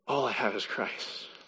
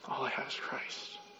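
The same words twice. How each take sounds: First: The voice sounds glad and satisfied. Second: The voice sounds sad and defeated. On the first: Having only Christ is enough. The speaker calls it right. "No, instead it's" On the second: Having only Christ feels like a loss. The speaker calls it wrong. "It's not, oh man"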